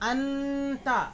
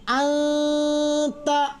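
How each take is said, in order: First: The n sound is fully pronounced with the tongue. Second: The n sound is hidden, nasalized through the nose. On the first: The speaker calls it wrong. "वो गलत" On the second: The speaker calls it right. "नाक में आवाज जाएगी"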